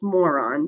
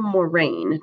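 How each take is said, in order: First: The word is said to sound like 'moron'. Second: The word is said to sound like 'moraine'. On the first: The speaker calls it wrong. "I had a student pronounce this moron. That is not how you say it" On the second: The speaker calls it right. "Terminal moraine"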